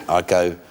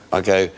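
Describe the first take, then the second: No difference in how they are said.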